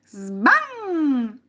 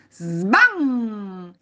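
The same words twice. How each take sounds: First: Higher, loud, ringing sbam; repeated door slam. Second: Loud sbam with humming tail; door-slam imitation. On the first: Acted. Boy exclaiming over banged door, high loud slam. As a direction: slam it high and let it ring. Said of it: "esclamò di nuovo". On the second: Boy banging the door, loud imitated slam. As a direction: slam the word, let it resonate. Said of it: "involontariamente sbatté la porta".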